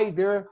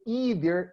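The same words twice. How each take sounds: First: It is said with a British pronunciation. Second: It is said with an American pronunciation. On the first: "In England, they say" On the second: "In the United States, you say"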